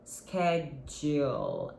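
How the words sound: It is said with an American pronunciation.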